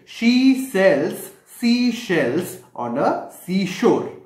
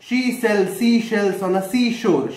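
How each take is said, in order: First: It is said at a slower pace. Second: It is said at a faster pace.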